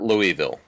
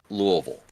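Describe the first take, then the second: First: The city name is pronounced the outsider way. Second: The city name is pronounced the local way. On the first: The speaker calls it wrong. "it is not Louisville" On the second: The speaker calls it right. "to say it properly, it is Louisville"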